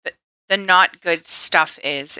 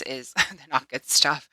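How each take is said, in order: First: Said in the usual way. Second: Laughing at her own wording; laughing through the words. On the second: Real, not acted. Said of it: "Oh my God, I can word".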